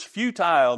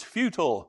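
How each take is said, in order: First: Futile said as few-tile, rhyming with tile; futile pronunciation. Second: Futile said as few-tul, short second syllable; futile pronunciation. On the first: Preacher showing congregation one way to say it, few-tile. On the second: Preacher showing congregation the other way to say it, few-tul. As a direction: say futile with a short, weak ending. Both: Shown as a demonstration. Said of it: "Another way to pronounce it is futile".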